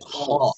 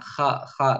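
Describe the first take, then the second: First: The syllable sounds heavy with a dark o. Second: The syllable sounds light with an open a. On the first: The speaker calls it right. "Ditebalkan lagi ketika kho, tapi kho" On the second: The speaker calls it wrong. "bukan kha kha"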